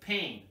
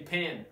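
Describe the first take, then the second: First: The vowel is a full ay sound. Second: The vowel is a short e sound. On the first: The speaker calls it right. "But pain, as you are probably used to" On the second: The speaker calls it wrong. "you are not going to say pen"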